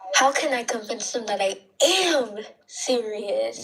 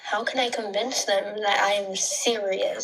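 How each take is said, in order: First: The word am is stressed. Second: The word am is not stressed.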